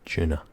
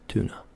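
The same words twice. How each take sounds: First: It is said in a Scottish accent. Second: It is said in a North American accent. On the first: "in Scotland, ... we say tuna. With a C H at the beginning" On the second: "how a North American would say it"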